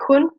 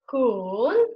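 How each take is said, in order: First: The syllable has a plain, unmarked pitch. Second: The pitch dips low and then rises. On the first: "it's very natural... It has no specific uh, pronunciation" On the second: "this one starts up, goes down, and again up"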